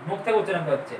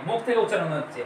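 Both takes have the same delivery.

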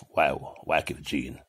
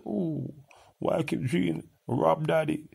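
First: Said in the usual way. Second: High, whiny mock of someone asking. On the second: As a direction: squeal it like a teasing whiner. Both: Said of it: "And say".

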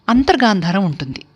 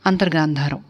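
First: Said in the usual way. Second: అంతర్గాంధారం repeated alone, softer and lower, each syllable clear; soft repeat for emphasis. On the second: Shown as a demonstration. Music teacher repeating the term అంతర్గాంధారం for students, softer and lower. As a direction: say అంతర్గాంధారం again softly so students catch it.

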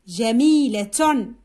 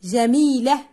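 First: جميلة lower and drawn out, ending in -tun; final ta sounded. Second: جميلة ending in h, without -tun; final ta dropped. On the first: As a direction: say جميلة slowly as jamiilatun. (نطق جميلة ببطء مع التاء والتنوين: جميلةٌ) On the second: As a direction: say جميلة as jamiilah. (نطق جميلة بحذف التاء: جميله) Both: Shown as a demonstration. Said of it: "نحذف الصوت الأخير".

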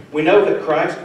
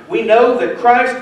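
First: Said in the usual way. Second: Know pushed higher and louder, slowed down; know rung out, slow and loud; stress on know. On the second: Shown as a demonstration. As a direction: hammer the word know. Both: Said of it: "I tried to emphasize that".

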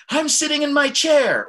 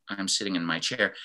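First: High, loud, excited outburst. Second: Apathetic. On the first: Teacher showing the emotion behind the words, excited. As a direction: exclaim it with a huge lift in pitch. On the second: Teacher showing the emotion behind the words, apathetic. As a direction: say it with the excitement drained away. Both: Shown as a demonstration. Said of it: "emotion that's behind what I'm saying".

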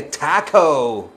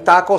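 First: "taco" as TAH-koh, stretched; drawn-out anglicized "taco"; English pronunciation. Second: "taco" with short pure vowels; Spanish "taco", unaspirated t; Spanish pronunciation. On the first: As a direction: say "taco" slowly, American-style. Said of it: "se dice". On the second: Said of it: "se dice taco". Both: Shown as a demonstration.

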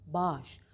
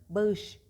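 First: Bağış as one long "baaş"; spoken form. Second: Bağış as "ba-ış"; spelling pronunciation. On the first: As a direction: drop the ı in bağış. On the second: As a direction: sound out bağış with an audible ı. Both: Shown as a demonstration. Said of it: "bağış değil".

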